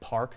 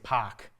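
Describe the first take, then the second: First: It is said with the R sound. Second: It is said without R, Boston style.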